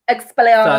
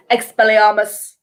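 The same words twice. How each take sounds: First: A touch firmer and louder spell; lightly firm spell-casting. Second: Imitating Snape, calm and unhurried; a hint of Snape casting calmly; dead chill Snape. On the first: Shown as a demonstration. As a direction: say it firmly, like you mean it. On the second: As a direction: cast it coolly, no effort at all. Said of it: "he's just dead chill".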